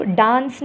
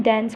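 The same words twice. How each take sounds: First: "डांस" with a broad "aa" as in "father"; "aa" pronunciation. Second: "डांस" with the "ae" vowel of "cat"; "ae" pronunciation. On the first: Teacher shows how not to say dance, "aa" pronunciation. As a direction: say "डांस" as "daans", the version being rejected. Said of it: "नहीं बोलते". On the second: Teacher contrasts two ways of saying dance, "ae" pronunciation. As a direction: say "डांस" as "daens", not "daans". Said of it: "डांस नहीं बोलते". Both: Shown as a demonstration.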